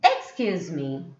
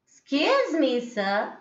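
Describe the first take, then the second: First: "Excuse me" starting strong and sliding down low; low, firm falling "Excuse me". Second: "Excuse me" pitched high, before "sir"; high, polite-request lift on "Excuse me"; rising tone. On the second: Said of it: "both are giving you different meaning". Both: Shown as a demonstration.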